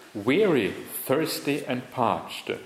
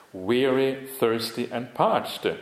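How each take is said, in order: The two takes are said the same way.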